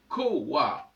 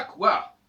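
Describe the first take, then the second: First: "coward" said "ko-wa", the u as a w; "coward" with a w glide, not ou; old pronunciation. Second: "couard" said the modern French way, "kou-ar", high and loud; "couard" as French reads it, rejected; wrong French reading. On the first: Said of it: "Ça doit se prononcer coward". ("coward" prononcé avec un w, "ko-wa") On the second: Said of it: "ça se prononce pas couard". ("couard" à la française, avec le son ou) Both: Shown as a demonstration.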